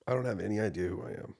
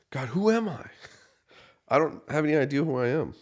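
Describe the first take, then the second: First: Said in the usual way. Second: Much higher and louder desperate cry; screaming at God. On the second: Retold or imitated. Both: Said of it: "I remember screaming".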